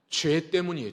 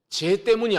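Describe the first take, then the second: First: The first word is pronounced carefully. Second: The first word is pronounced carelessly. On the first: The speaker calls it right. "발음 잘 하셔야 돼요" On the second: The speaker calls it wrong. "죄 때문이 아니라"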